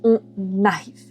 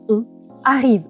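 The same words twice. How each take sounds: First: The final consonant links into the next word. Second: The words are said separately with no link. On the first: The speaker calls it right. "Vous devez dire on arrive" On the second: The speaker calls it wrong. "Vous ne pouvez pas dire on arrive"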